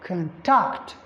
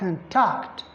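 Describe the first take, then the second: No difference in how they are said.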